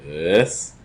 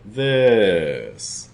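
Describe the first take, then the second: First: Low pitch this. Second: Mid pitch this. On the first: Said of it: "mid down to low". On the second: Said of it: "we'll do mid down to low". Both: Shown as a demonstration.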